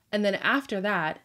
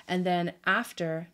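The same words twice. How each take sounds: First: Said in the usual way. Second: "after" said with a slipping South African accent; South African lilt on "after". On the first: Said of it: "What is happening?". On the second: Real, not acted. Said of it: "this South African accent is really hitting me".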